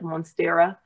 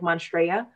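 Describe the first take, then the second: First: The word is said just as it is spelled. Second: The word is said with its sounds mixed up. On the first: The speaker calls it right. "the way it spells like" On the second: The speaker calls it wrong. "I've always said it wrong. I used to say like"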